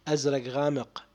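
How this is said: It is said in Iraqi dialect pronunciation. "الآن بلهجة عراقي بخون"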